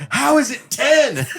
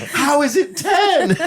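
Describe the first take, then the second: First: Incredulous, high and laughing; laughing disbelief. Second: High, slow, laughing incredulity; laughing disbelief, slower. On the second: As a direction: stretch it out through laughter. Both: Retold or imitated. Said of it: "Justin almost lost his mind".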